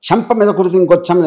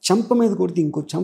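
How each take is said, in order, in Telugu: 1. ఇది కోపంగా, బలంగా ధ్వనిస్తోంది. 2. ఇది భావోద్వేగంతో బాధగా, మృదువుగా ధ్వనిస్తోంది. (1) "కోపంతో చెప్పొచ్చు" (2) "ఒక ఆర్ద్రతతో అంటాడు"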